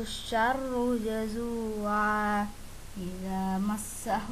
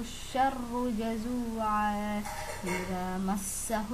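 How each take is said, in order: Both takes have the same delivery.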